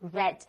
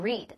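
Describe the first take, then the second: First: It is pronounced the way the past participle sounds. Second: It is pronounced the way the base form sounds. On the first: It is the form used in the present perfect. "这儿是现在完成时，所以需要读为read" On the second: It is the plain present form of the verb. "原型读作read"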